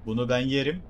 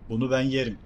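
First: "yerim" stressed, rising at the end. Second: "ben" hit hardest, falling at the end; stress on ben. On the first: Streamer repeats the boast to viewers, stress on "yerim". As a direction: push "yerim" up at the close. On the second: Streamer boasts to viewers, stress on "ben". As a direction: lean on "ben" in "Bunu ben yerim". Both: Real, not acted.

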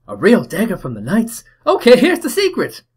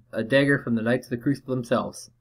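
First: Put-on very high, loud Cockney boy bursting with joy; excited Cockney kid. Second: Said in the usual way. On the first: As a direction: squeal it like a thrilled Cockney urchin. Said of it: "my best Cockney accent". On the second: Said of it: "player character's line".

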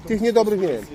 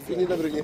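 First: Said in the usual way. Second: "niedobrych" repeated softer, as an afterthought; quiet echo. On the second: Shown as a demonstration. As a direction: echo it under your breath.

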